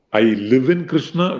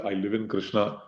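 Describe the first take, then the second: First: Said in the usual way. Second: Much softer, settled reply; answering his own question as a calm devotee; soft devotee's answer. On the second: Acted. A devotee answering the teacher, softly and surely.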